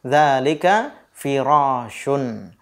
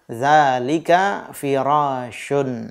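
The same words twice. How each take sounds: First: Dzalika firashun said slowly, falling at the end; teacher giving the answer, slow. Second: Dzalika firashun repeated slowly, falling; teacher repeating the answer slowly. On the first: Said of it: "jawabannya la". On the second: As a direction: say it again very slowly. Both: Shown as a demonstration.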